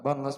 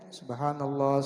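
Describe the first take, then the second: First: It is said very fast and slurred. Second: It is said slowly and calmly.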